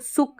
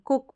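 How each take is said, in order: First: The word begins with an s sound. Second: The word begins with a k sound. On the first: The speaker calls it wrong. "अब इसको सुक नहीं पढ़ देंगे" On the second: The speaker calls it right. "कुक पढ़ेंगे"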